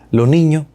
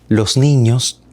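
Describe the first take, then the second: First: The final s sounds are weakened, almost gone. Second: The final s sounds are pronounced clearly. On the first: This is typical of eastern Cuba or Havana speech. "Esa S se debilita, está casi ausente" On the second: This is typical of Camagüey speech. "con la S bien clara"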